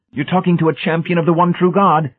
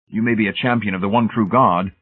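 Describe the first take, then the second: First: High, loud zealous proclamation; warning. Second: Said in the usual way. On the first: A narrator's reading. Brady warning Hamilton of his standing, zealous. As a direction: declare it fervently, pitched right up. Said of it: "Brady warned".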